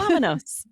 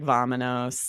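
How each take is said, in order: First: It is said lively with lots of energy. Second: It is said flatly with little energy. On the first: The speaker calls it right. "You have to be like" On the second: The speaker calls it wrong. "it would be kind of weird to be like"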